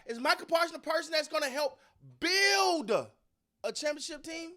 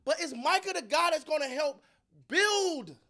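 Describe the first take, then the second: First: "build a championship team" drawn out very slowly, each word leaned on; slow way down and hit "build" hard so the back row hears it; emphatic repeat. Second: Said in the usual way. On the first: Shown as a demonstration. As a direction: spell out "build a championship team" with heavy weight on "build". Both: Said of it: "Let me say that again for the people in the back".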